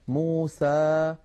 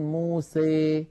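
First: The final vowel is an open, pure 'a'. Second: The final vowel leans strongly toward 'ee'. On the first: "يخرج بفتح الفم فتحا وسطا، هكذا اسمعوني جيدا، ليس لا فتحا مبالغا فيه ولا فتحا مخلوطا بياء" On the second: "يبالغ في هذا الأمر فيخلط صوت الألف بصوت الياء أكثر من هذا"

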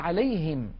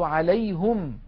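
First: The vowel after the h is i. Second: The vowel after the h is u.

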